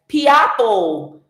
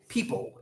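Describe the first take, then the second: First: The word is said like 'pee-apple'. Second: The word is said as ordinary 'people'. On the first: The speaker calls it wrong. "she couldn't pronounce the word people" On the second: The speaker calls it right. "it's pronounced people"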